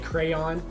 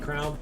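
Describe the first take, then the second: First: The word is pronounced carefully and fully. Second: The word is pronounced casually and reduced. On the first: The speaker is paying attention to pronunciation. "if I'm thinking about it, I'll say crayon" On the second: The speaker is not paying attention to pronunciation. "if I'm not thinking about it, I'll say crown"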